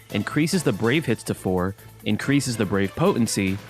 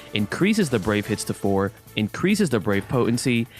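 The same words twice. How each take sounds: No difference in how they are said.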